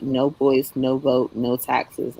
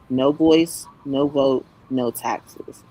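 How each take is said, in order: First: It is said at normal speed. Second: It is said slowly.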